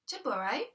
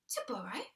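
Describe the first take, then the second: First: Said in the usual way. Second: Soft, whispered repeat; whispered disbelief. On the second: Acted. Puzzled listener echoing the thief's excuse in a whisper. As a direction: echo the word to yourself.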